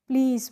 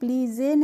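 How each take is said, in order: First: The word ends on the z with no vowel. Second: An extra vowel is sounded after the final z. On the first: The speaker calls it right. "प्लीज़ पढ़ते हैं" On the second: The speaker calls it wrong. "इसको हम प्लीज़ ए नहीं पढ़ते हैं"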